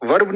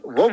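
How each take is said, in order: First: वर्ब with a sounded "r"; wrong pronunciation. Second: वव as "vuhb", r left silent; correct pronunciation. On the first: Teacher showing students the mistake, वर्ब said with its r. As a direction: pronounce the r in वर्ब, "varb". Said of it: "वर्ब नहीं होता". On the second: Teacher correcting students' English, वव said without any r. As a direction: drop the r in वव, a long central vowel. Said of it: "वव होता है". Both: Shown as a demonstration.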